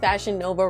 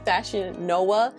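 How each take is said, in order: First: Nova is said with a V sound. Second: Nova is said with a W sound. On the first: The speaker calls it wrong. "we're pronouncing Fashion Nova wrong" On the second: The speaker calls it right. "V's in Latin are pronounced as W's"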